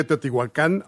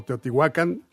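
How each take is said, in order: First: Teotihuacán con la última A tónica; acento final. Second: Teotihuacán con el golpe en «huá», no al final; acento en penúltima. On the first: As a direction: cargar la voz en «cán» de Teotihuacán. (Teotihuacán como palabra aguda) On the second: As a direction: cargar la voz en la penúltima sílaba de Teotihuacán. (Teotihuacán pronunciado como palabra llana) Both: Shown as a demonstration. Muestra dos acentuaciones aceptadas.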